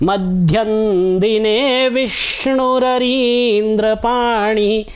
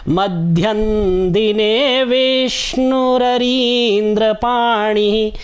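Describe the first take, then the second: The two takes are said the same way.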